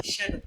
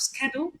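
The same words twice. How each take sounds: First: "schedule" with sh at the start; British pronunciation. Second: "schedule" with sk at the start; American pronunciation. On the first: Lecturer giving British English, "schedule" with sh. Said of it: "in British English". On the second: Lecturer giving the American version, "schedule" with sk. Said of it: "in the American version". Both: Shown as a demonstration.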